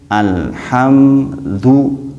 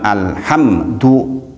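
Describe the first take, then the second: First: The m sound is held briefly and flows. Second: The m sound is cut short immediately. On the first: The speaker calls it right. "dan mimnya kan ada sedikit, itu tawasud namanya" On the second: The speaker calls it wrong. "Jadi jangan alhamdu"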